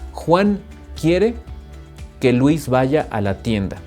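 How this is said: There is a short pause after "Juan".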